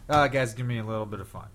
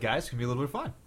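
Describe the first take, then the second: First: The voice falls at the end. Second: The voice rises at the end.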